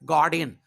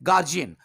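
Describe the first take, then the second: First: The middle consonant is a 'd' sound. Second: The middle consonant is a 'j' sound. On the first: The speaker calls it right. "इसका actual sound होता है गार्डियन" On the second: The speaker calls it wrong. "इसे अधिकांश लोग कहते हैं गार्जियन। This is not गार्जियन"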